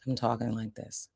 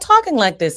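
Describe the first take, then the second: First: The voice is lower in pitch and quieter. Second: The voice is higher in pitch and louder. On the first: "I'm also lowering my voice, the pitch of my voice as well" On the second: "I'm not talking like this anymore"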